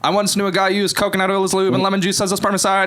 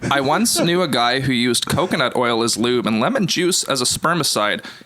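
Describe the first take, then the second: First: It is read very fast, like an auctioneer. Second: It is read slowly and calmly.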